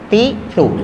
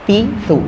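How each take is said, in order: Both takes have the same delivery.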